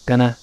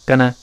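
First: The vowel is said lightly with a small mouth. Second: The vowel is said lightly with a small mouth.

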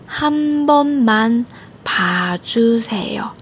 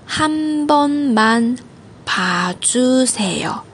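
No difference in how they are said.

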